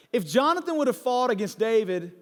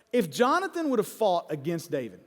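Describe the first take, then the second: No difference in how they are said.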